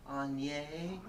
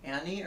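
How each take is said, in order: First: "Anye" said as AHN-yeh, softer; odd pronunciation. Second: Said in the usual way. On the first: Shown as a demonstration. Friend asking how to pronounce Annie, says AHN-yeh. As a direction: try "Anye" as AHN-yeh with a small laugh. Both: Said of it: "how do you pronounce D?".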